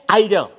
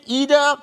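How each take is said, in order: First: "either" said EYE-duh; long eye sound in either, with a d; Jamaican "either". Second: "either" said EE-duh; high, long ee in either, with a d; Vincentian "either". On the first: Storyteller showing how Jamaicans talk, "either" as EYE-duh. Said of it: "Jamaicans say either". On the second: Storyteller showing how Saint Vincent people talk, "either" as EE-duh. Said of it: "Saint Vincent people say either". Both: Shown as a demonstration.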